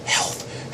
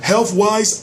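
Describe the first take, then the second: First: Whisper. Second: Said in the usual way. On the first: Shown as a demonstration. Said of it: "I would have to whisper". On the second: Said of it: "it's like I'm yelling".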